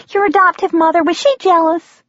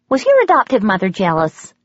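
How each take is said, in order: First: Much higher and louder, eager prying waitress; waitress repeating her question to the guest. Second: Said in the usual way. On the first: Acted. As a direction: lean in and press the juicy question. Waitress presses the question again.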